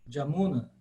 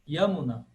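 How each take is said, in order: First: The name begins with a J sound. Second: The name begins with a Y sound. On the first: This is the contemporary regional pronunciation. "na Bengala hoje se fala, de fato, Jamuna" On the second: This is the classical Sanskrit pronunciation. "em sânscrito clássico, Yamuna"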